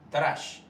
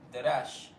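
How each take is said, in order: First: The first two consonants run together without a vowel. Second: A full vowel is heard after the first consonant. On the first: The speaker calls it right. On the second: The speaker calls it wrong.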